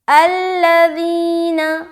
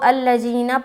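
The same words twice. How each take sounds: First: The middle consonant is a soft 'dh' sound. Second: The middle consonant is a hard 'z' sound. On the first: The speaker calls it right. "ज़ाल को बहुत ही नरमी के साथ अदा करेंगे" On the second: The speaker calls it wrong. "कुछ लोग यहाँ पर ज़ाल की जगह ज़ा बोल देते हैं, तो ये गलती हो जाती है"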